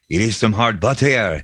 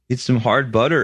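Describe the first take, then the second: First: It is said in a French Canadian accent. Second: It is said in a plain Canadian accent. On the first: "French Canadian accent would be like" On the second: "here's his Canadian accent"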